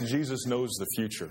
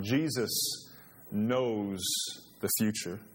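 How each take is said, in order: First: Said in the usual way. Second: "Jesus" "knows" "the future" with a pause after each word; slow, weighty repeat with long pauses between "Jesus", "knows" and "the future"; each word set apart. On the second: Shown as a demonstration. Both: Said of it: "I'll say that one more time".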